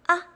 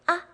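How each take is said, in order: The two takes are said the same way.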